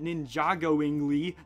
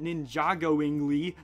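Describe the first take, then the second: First: The name is said as Ninjago plus ingly. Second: The same.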